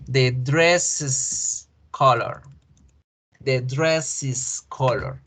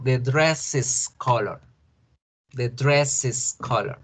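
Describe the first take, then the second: First: Dresses said as \"dresis\", slow and clear; slow model English. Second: Dresses said as \"dreses\", slow and clear; slow model English. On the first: Teacher modeling the possessive for the class. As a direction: say \"dresses\" slowly, ending in \"is\". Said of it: "miremos otro ejemplo". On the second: Teacher repeating the example slowly for students. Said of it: "El color del vestido". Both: Shown as a demonstration.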